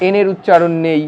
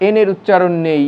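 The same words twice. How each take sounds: The two takes are said the same way.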